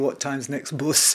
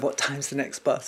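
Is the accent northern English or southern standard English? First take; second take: northern; southern standard. First: It is spoken in a northern English accent. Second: It is spoken in a standard southern accent. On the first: The elocution lessons had not changed the accent yet. The speaker calls it wrong. "I'd still come out of the elocution lessons going" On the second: This is the accent the lessons were meant to teach. The speaker calls it right. "instead of"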